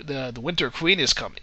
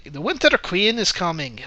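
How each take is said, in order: First: Said in the usual way. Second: Mock Irish accent, lilting up on the words; bad Irish accent. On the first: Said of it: "basically says, "Ugh". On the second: Reviewer quoting Hemsworth's character to mock the film, bad Irish accent. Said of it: "speaks with a really bad Irish accent".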